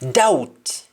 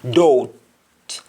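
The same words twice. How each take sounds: First: It is said in an English accent. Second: It is said in a Jamaican accent.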